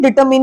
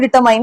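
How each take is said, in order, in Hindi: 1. आखिरी सिलेबल में छोटा 'ih' वाला स्वर है। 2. आखिरी सिलेबल में 'eye' वाला स्वर है। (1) "डिटरमिन ही बोलते हैं" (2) "उसको भी डिटरमाइन नहीं"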